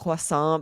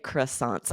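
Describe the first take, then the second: First: It is said with a French pronunciation. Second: It is said with an English pronunciation. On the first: "in French, you know, it's croissant" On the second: "but in English, I just say croissants"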